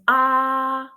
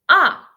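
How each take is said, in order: First: It is said with the first tone. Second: It is said with the fourth tone. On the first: "the first tone is ah" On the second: "And the last one"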